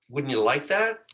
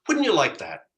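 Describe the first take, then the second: First: The voice rises at the end. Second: The voice falls at the end. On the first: The speaker sounds unsure and questioning. The speaker calls it wrong. "The up inflection" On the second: The speaker sounds confident, inviting agreement. The speaker calls it right. "It's much more of a people are going to nod their head"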